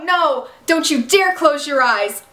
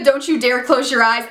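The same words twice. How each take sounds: First: Slow, a touch of tearful pleading; mild imitated pleading. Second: Said in the usual way. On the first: Arya begging the dying Ezra, a touch of tearful pleading. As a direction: lightly act out Arya begging. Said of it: "Arya starts hysterically crying and screaming". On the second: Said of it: "when she said".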